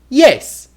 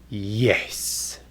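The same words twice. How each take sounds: First: The word is said quickly. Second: The word is said slowly. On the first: "You can say things very fast" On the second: "or you can say them very slow"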